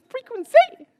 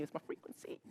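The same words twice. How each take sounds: First: "Frequency" shouted much higher and louder, rising at the end; loud high call. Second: Voiceless whisper on "It's my frequency". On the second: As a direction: breathe "frequency" out with no voice. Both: Shown as a demonstration.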